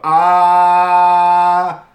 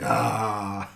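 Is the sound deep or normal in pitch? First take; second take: normal; deep. First: It is said at a normal pitch. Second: It is said in a deeper voice.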